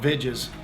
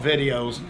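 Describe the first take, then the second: First: It is said as two syllables, "vij-es". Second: It is said as three syllables, "vid-ee-ohs". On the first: The speaker calls it right. "They don't know it's called vidges" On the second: The speaker calls it wrong. "They call it videos"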